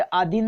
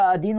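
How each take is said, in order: First: आधीन opening on long "aa"; long initial aa. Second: अधीन opening on short "a"; short initial a. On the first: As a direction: say आधीन as AA-dheen. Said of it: "आधीन नहीं होता". (आधीन की शुरुआत लंबे "आ" से) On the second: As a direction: say अधीन as a-DHEEN, unhurried. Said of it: "अधीन होता है". (अधीन की शुरुआत छोटे "अ" से) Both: Shown as a demonstration.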